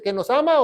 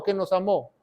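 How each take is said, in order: First: Said in the usual way. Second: "amó" accented on the final O; "amó" with its O stressed, not the A. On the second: Shown as a demonstration. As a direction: land the stress on the last syllable of "amó". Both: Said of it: "Con acento en la O".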